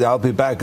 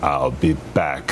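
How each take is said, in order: First: Said in the usual way. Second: Low, deliberate Terminator delivery; menacing catchphrase, as in the film; Terminator movie line. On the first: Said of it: "No, the way you said it in the movie". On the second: Retold or imitated. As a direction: drop deep and space out "I'll be back". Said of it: "the way you said it in the movie".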